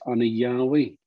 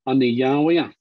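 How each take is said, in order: First: The final vowel is dropped. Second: The final vowel is fully pronounced.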